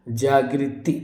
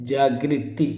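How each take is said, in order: The two takes are said the same way.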